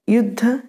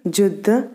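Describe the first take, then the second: First: The word begins with a y sound. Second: The word begins with a j sound. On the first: This is the standard Hindi form. "ये के लिए ज" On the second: This is the Malvi dialect form. "ये के लिए ज"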